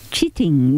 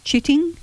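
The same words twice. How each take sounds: First: Chitting said slowly, low falling tune; term announced. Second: Chitting? lifted high, rising like a question; questioning rise. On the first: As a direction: present chitting with a firm low fall. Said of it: "now the horticultural term is". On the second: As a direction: ask chitting? with a sharp upward rise. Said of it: "ever come across that word". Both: Shown as a demonstration.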